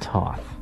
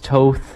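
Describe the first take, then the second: First: The vowel rhymes with Hoth. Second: The vowel does not rhyme with Hoth. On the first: The speaker calls it wrong. "not Toth. Not like the planet Hoth" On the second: The speaker calls it right. "that's Toth"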